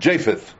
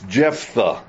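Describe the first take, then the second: First: The name is said as Japheth. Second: The name is said as Jephthah. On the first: The speaker calls it wrong. "I have mispronounced his name. I have been calling him Japheth" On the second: The speaker calls it right. "and it's Jephthah"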